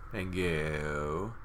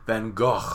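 First: It is said with an American accent. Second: It is said with a Dutch accent.

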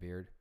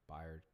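First: The name is said as one syllable, like beard. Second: The name is said with a y sound, two syllables. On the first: The speaker calls it wrong. "I think that's how you say his last name, right?" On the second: The speaker calls it right. "That Y right there"

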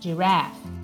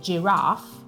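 First: The vowel is a short, flatter front sound. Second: The vowel is a long, open A sound. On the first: "In americano, invece, può diventare addirittura una E" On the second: "la A in British English"

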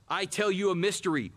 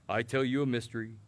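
First: It is read in an excited, lively voice. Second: It is read in a flat, monotone voice. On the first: The speaker calls it right. "you read with excitement" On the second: The speaker calls it wrong. "that monotone over that saint like that"

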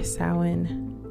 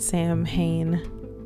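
First: The word is not said as it is spelled. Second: The word is said just as it is spelled. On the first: The speaker calls it right. "I hope I'm pronouncing it the right way" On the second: The speaker calls it wrong. "that's the way it looks, but that's not how you say it"

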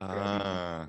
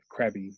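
First: The word begins with a soft g sound. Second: The word begins with a hard k sound. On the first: The speaker calls it right. "more of a like a g, like a g sound" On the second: The speaker calls it wrong. "Instead of crabby"

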